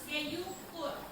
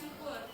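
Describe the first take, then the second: First: The word is sounded out haltingly in parts. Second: The word is said smoothly in one go. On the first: The speaker calls it wrong. "mengeja keyukur. Itu berarti tidak pasti karena tidak lancar dan tidak jelas" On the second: The speaker calls it right. "Yang baik kalau misalnya orang sebut syuk"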